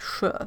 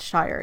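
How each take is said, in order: First: The word is reduced to a short 'sh' sound. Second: The word is said in full, like 'shire'. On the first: The speaker calls it right. "You probably say something like sh" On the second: The speaker calls it wrong. "you don't say it Shire"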